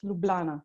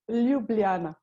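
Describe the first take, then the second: First: The name is said without the j sounds. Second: The name is said in its standard form.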